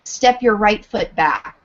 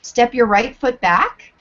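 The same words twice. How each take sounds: First: "Step your right foot back" falling firmly at the end; statement tune. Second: "Step your right foot back" with a rising question tune. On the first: Teacher demoing a cue as a statement, falling. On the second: Teacher demoing a cue as a question, rising. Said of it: "For example". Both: Shown as a demonstration.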